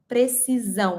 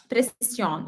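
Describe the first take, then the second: First: "precisão" with a buzzing Z in the middle; Z sound in precisão. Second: "precisión" with a hissed S in the middle; S sound in precisión. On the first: Teacher showing Portuguese to learners, "precisão" with a Z sound. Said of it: "with a Z sound". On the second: Teacher showing Spanish to learners, "precisión" with an S sound. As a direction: say "precisión" the Spanish way, unvoiced S between vowels. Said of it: "with the S sound". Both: Shown as a demonstration.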